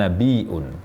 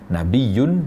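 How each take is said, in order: First: The middle has a glottal stop sound. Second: The middle has a doubled y sound. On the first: A prophet is a bearer of news. "berakhiran dengan hamzah" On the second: A prophet is one of high rank. "nabiyun dengan ya bertasydid"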